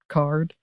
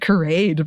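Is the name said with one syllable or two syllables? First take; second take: one syllable; two syllables. First: The name is said with one syllable. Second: The name is said with two syllables. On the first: The speaker calls it right. "it's probably definitely Card" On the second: The speaker calls it wrong. "I've always pronounced it Carade"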